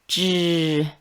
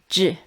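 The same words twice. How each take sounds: First: The sound is said with voicing. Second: The sound is said without voicing.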